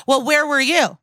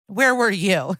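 First: Higher, louder mock-accusing comeback; accusing deflection. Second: Said in the usual way. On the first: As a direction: throw the question back at him, pitched up and louder. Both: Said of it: "she goes".

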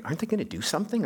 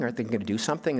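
First: Quick, higher mock complaint from other diners; mildly exasperated onlookers at the next table; impatient bystanders. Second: Said in the usual way. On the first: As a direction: rattle it off like a nosy diner. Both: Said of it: "others are looking like".

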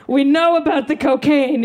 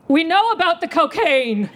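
First: High-pitched kid playing it cool; mock child accuser, less squealed; cool toddler cop. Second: Put-on high little-kid outburst; mock child's sudden confession, pitched way up; blurted out. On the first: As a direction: announce it as a toddler detective, pitched up. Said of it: "I like to imagine aviator sunglasses". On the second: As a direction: blurt it in a high, accusing squeal. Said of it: "I blurt out".

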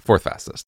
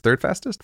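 First: "Fourth fastest." said under the breath, voiceless; whispered correction. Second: "Third fastest?" asked with a rising question tune; "Third fastest?" lifted up at the end. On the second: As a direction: query "Third" as if unsure. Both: Real, not acted. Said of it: "That's the, or fourth fastest".

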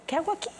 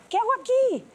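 First: High, softer dawning question; waking realization. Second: Very high, mounting disbelief; alarmed realization. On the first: Woman reliving the day she woke up, high soft disbelief. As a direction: ask it small and high, as it dawns. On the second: Woman waking inside a toxic relationship, high alarmed disbelief. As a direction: repeat it higher, the alarm rising. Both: Retold or imitated. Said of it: "desperté y fue así de".

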